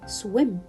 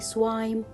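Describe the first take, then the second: First: The vowel is a short 'ih' sound. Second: The vowel is a long 'eye' sound. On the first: The speaker calls it right. "Because I pronounce it swim" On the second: The speaker calls it wrong. "I cannot say swime"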